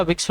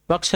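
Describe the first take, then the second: First: Vriksh repeated with its i sound; correct vriksh. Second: Vriksh repeated wrongly as vaksh; wrong form of vriksh. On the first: Teacher repeating the correction for students, vriksh said correctly. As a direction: give vriksh its proper vowel. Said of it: "होता है". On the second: Teacher repeating the error for students, vriksh misread as vaksh. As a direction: drop the ri from vriksh. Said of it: "नहीं होता". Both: Shown as a demonstration.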